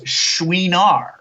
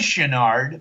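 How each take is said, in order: First: The name is said in a French way. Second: The name is said in an anglicized way. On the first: This is how the owner of the name said it. The speaker calls it right. "the way Missus Chenard pronounced it was Chouinard because it's French" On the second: This is how most people say the name. The speaker calls it wrong. "everybody says Chenard"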